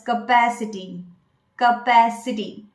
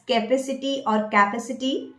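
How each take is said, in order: First: "capacity" as kuh-PASS-i-tee; correct pronunciation. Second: "capacity" as KAY-pa-si-ty, then KA-puh-si-ty; wrong pronunciations. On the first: Coach giving the right form, correct pronunciation. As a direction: weaken the first vowel of "capacity" and stress pass. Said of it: "You should pronounce it as". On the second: Coach testing learners with mistakes, wrong pronunciations. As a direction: mispronounce "capacity" with a full first vowel. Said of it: "that's a wrong pronunciation". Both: Shown as a demonstration.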